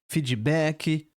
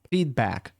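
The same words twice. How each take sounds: First: It is said with a Brazilian Portuguese accent. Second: It is said with an English accent. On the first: The speaker calls it wrong. "Com o nosso sotaque" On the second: The speaker calls it right. "procura a pronúncia em inglês"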